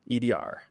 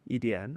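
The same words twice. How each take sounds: First: "E D R" with the rhotic R ending of Beijing Mandarin; "E D R" with erhua, as a Beijing-taught learner. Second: "E D N?" ending on a plain N with no R curl, asked back; "E D N?" without erhua, quietly questioning; Taiwanese correction. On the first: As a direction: end "E D R" on a curled R sound like the textbook standard. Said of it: "learning textbook learning". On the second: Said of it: "kept correcting me". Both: Retold or imitated.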